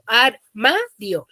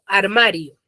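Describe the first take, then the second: First: The word is said slowly, syllable by syllable. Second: The word is said quickly, all run together. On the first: "es un poco más lento" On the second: "de manera compuesta, todo junto y manera rápida"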